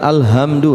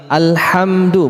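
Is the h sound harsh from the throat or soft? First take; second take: soft; harsh. First: The h sound is soft and breathy. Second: The h sound is harsh, from mid-throat. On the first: The speaker calls it wrong. "bukan alhamdu ya" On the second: The speaker calls it right. "Sini harus terasa di tengah tenggorokan"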